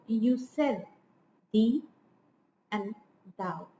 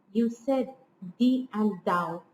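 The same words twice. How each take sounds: First: Slow "you said", then "thee", "and", "thou" each set apart; word-by-word scansion. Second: "you said" then "thee and thou" as two phrases; connected scansion, falling on "thou"; metrical stress. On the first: Lecturer underlining the stresses for students, word-by-word scansion. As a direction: pause between "thee", "and" and "thou", dropping on "thou". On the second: Lecturer scanning the verse for students, metrical stress. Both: Shown as a demonstration. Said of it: "let me underline the stressed syllables".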